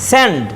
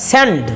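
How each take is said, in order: No difference in how they are said.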